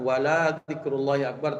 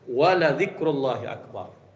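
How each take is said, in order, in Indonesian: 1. Vokal setelah l dibaca panjang. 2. Vokal setelah l dibaca pendek. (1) "Bukan panjang, bukan" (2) "ini pendek lamnya"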